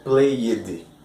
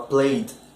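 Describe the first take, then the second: First: The final consonant is pronounced strongly. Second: The final consonant is soft and subtle. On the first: The speaker calls it wrong. "você não fala played" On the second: The speaker calls it right. "você fala played"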